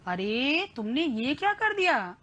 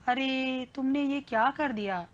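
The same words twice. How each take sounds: First: It is said in an amazed, surprised tone. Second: It is said in a sad, disappointed tone. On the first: The speaker is astonished by what was done. "हम आश्चर्य आ गया, हमको अचरज हो रहा है" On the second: The speaker is upset and let down by what was done. "हम दुख हैं, हमारे में नि- निराशा भरी हो"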